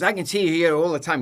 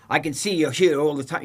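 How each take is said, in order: First: Higher and louder, imitating a hostile officer; mock aggressive officer. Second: Imitating a gruff border officer, louder; mock aggressive official. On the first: Retelling the passport officer, hammed-up hostile and loud. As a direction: throw the line at him like a rude official. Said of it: "He goes". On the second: Retelling the airport officer, a mock aggressive demand. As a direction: play the rude passport officer, pushing. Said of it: "He's really aggressive".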